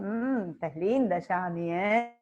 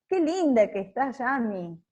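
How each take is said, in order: First: It is said with a suggestive, double-meaning tone. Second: It is said as a plain compliment.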